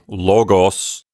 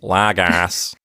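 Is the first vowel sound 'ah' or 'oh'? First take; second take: oh; ah. First: The first vowel is a rounded 'oh' sound. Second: The first vowel is an open 'ah' sound. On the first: This is the pronunciation the hosts prefer. "So we would say logos" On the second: Many other teachers pronounce it this way. "a lot of people will say lagos, like that"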